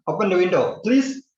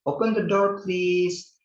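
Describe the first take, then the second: First: Please shot up high at the end; a sharp rising please; badly pitched please; wrong intonation. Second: High, gentle polite ask; polite teacher demo; wiser polite request. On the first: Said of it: "you cannot say". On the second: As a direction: request nicely with a lilt. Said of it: "lebih bijaksana kalau misalnya kalian mengatakan". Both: Shown as a demonstration.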